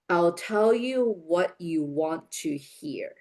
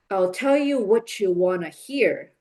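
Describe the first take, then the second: First: It is spoken slowly with each word separate. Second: It is spoken quickly with a strong rhythm. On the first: "please repeat after me slowly" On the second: "quicker with rhythm"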